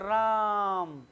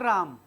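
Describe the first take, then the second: First: The vowel is held long and drawn out. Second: The vowel is held for a normal length. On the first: "राम को दिल से पुकारता हूं" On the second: "जैसे हम लिखते हैं राम"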